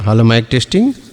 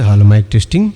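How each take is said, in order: First: The sharp high treble frequencies are boosted. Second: The low bass frequencies of the voice are boosted. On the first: "sharp triple" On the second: "full bass quality వస్తుందండి"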